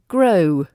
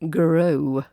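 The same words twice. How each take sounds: First: G and R join with no extra vowel. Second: An extra uh vowel comes between G and R. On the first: The speaker calls it right. "when it should be grow" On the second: The speaker calls it wrong. "not grow"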